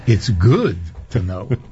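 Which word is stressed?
good. The stress falls on the word good. To be good you must have knowledge. "Or you can put the emphasis on the good"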